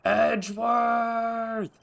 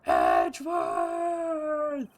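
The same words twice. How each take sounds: First: Long drawn-out scream of the name, high and slow; Von Karma scream. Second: Even higher and longer shrieked name, very slow; Von Karma scream. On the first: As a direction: howl the name like a cornered villain. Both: Retold or imitated. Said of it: "the signature Von Karma scream".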